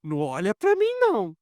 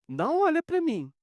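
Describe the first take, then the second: First: Said in the usual way. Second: Emphatic repeat. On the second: Retold or imitated. Repeated much higher, emphatic.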